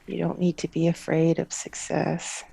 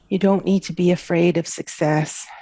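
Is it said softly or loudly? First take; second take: softly; loudly. First: It is said at a softer volume. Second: It is said at a louder volume.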